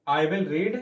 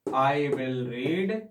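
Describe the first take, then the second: First: Said in the usual way. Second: Each word stretched out for the class; teacher reading slowly for students to copy; very slow dictation. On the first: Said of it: "I will action के place पे read". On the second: Shown as a demonstration. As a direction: dictate it at a crawl. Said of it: "मैं Dainik Jagran newspaper पढ़ूंगा".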